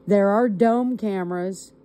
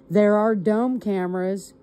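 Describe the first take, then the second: No difference in how they are said.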